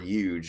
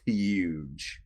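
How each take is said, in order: First: The word begins with a Y sound. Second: The word begins with an H sound.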